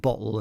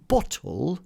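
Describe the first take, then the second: First: The T is replaced by a glottal stop. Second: The T is clearly pronounced. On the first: "If you've got glottal stops, so you are saying bottle" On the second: "if you then start pronouncing your T's"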